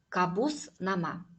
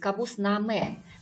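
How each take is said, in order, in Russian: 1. Название заканчивается на гласный 'a'. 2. Название заканчивается на гласный 'e'.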